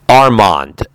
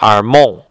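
First: Said the English way, with a sounded final D. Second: Said the French way, with a silent final D. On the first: "is the way I would say it in English" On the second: "in French, they don't say Armand. They say Armand"

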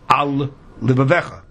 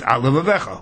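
First: The two words are kept apart. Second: The two words merge into one word. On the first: The speaker calls it right. "we say al livavecha" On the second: The speaker calls it wrong. "If you say it quickly, it sounds al livavecha, one word"

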